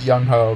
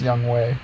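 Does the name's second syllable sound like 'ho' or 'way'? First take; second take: ho; way. First: The second syllable sounds like 'ho'. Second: The second syllable sounds like 'way'. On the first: This is a personal preferred pronunciation. "I pronounce it Young Ho, because I think that's better" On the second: This is the name's actual pronunciation. "It is pronounced Young Way"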